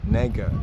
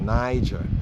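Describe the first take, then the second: First: The first vowel sounds like 'eh'. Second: The first vowel sounds like 'eye'. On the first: This is how the name was said in ancient times. "Shimon was called Neger" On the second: This is how the name is said today. "We say Niger today"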